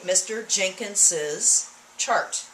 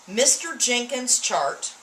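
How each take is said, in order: First: The possessive Jenkins has three syllables. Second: The possessive Jenkins has two syllables. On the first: "I added a syllable when I did that" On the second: "you notice this is two syllables"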